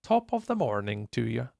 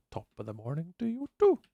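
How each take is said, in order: First: Said in the usual way. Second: Light put-on Irish accent on "Top of the morning to you too"; mock Irish accent. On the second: Shown as a demonstration. Streamer answering a viewer's Irish greeting in mock Irish. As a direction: tease the greeting in a hint of Irish. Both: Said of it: "that's normally what the Irish people say".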